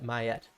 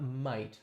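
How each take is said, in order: First: It is said in a French way, two syllables. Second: It is said as the English word might. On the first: The speaker calls it right. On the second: The speaker calls it wrong. "not might, like I'm pronouncing it"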